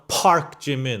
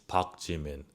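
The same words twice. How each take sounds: First: The first consonant is a hard, puffed P. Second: The first consonant is a soft, unpuffed sound. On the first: The speaker calls it wrong. "it's not a [name]" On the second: The speaker calls it right. "It's Park Jimin. ... Park. Soft"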